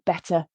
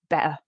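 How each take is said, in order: First: The t is fully released. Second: The t is glottalized or dropped.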